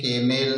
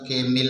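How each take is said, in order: First: The last syllable has a clear 'e' vowel. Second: The last syllable has a clear 'i' vowel. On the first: "केमेल नहीं पढ़ेंगे" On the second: "केमिल नहीं पढ़ेंगे"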